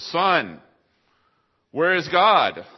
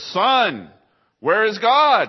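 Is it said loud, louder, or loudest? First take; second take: louder; loudest. First: It is said more loudly and sternly. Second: It is said in the most booming voice.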